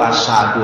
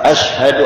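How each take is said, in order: First: The second consonant is a plain 's' sound. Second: The second consonant is a 'sh' sound. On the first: The speaker calls it wrong. "Asadu itu yang baru masuk Islam Pak" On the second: The speaker calls it right. "yang penting tajwid Pak"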